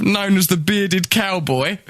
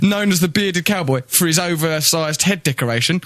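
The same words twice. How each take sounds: First: Slow reading. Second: Said in the usual way. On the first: Shown as a demonstration.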